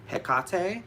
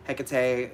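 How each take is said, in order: First: Hecate as heh-KAH-tay, high and rising; middle-syllable stress. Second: Hecate as HEK-uh-tay, stress on the first syllable; usual alternative pronunciation. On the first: Witch demonstrating the name, middle-syllable stress. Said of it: "putting a strong emphasis on the middle syllable". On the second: Witch giving a second accepted form, alternative pronunciation. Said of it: "is usually how it's pronounced too". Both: Shown as a demonstration.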